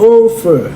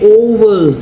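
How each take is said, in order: First: The middle consonant is a v with teeth on lip. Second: The middle consonant is a w-like sound. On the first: The speaker calls it right. "มันเลยต้องออกเสียงเป็น" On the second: The speaker calls it wrong. "ไม่ใช่"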